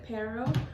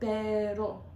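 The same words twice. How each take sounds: First: The r is a plain, untapped sound. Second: The r is tapped with the tongue tip. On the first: "You could pronounce it pero" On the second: "you'll take the tip of your tongue"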